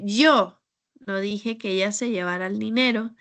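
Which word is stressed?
yo. The word 'yo' carries the main stress. Someone other than the speaker said it. "porque tal vez no fui yo, yo no fui quien dijo eso"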